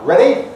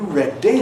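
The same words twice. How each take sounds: First: The d sound is very short and quick. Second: The d sound is held long and slow. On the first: It sounds like American English. "if I speed it up, ... That's American English" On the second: It sounds like Welsh English. "That's a slow D. That's characteristic of Welsh English"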